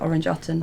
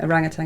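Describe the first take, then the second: First: It is said as two parts, orange utton. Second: It is said as the usual word orangutan. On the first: "as Orange Utton" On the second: "I was reading Orangutan"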